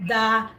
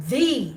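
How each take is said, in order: First: "the" said as "thuh"; short "the". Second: "the" said as "thee"; long "the". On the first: Teacher listing both forms of "the", short form. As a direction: give "the" its short vowel. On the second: Teacher listing both forms of "the", long emphatic form. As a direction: give "the" its long ee vowel. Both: Shown as a demonstration. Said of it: "we can use emphatic".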